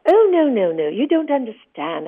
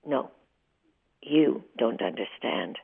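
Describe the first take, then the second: First: High, loud, hurried "Oh, no, no, no, you don't understand"; a rattled director backpedalling fast; high, loud flustered retort to the actress; flustered protest. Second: Cold retort. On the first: Director hastily correcting her. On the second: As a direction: hand his words back, icy and deliberate. She throws his words back. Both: Retold or imitated.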